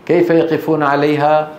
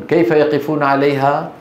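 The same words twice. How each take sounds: The two takes are said the same way.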